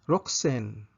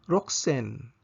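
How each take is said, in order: Both takes have the same delivery.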